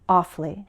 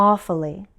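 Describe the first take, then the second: No difference in how they are said.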